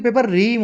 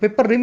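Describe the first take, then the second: First: The second word has a long vowel, like reem. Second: The second word has a short vowel, like rim. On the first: The speaker calls it right. "Paper रीम होती है" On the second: The speaker calls it wrong. "इसको गलत बोलते हैं"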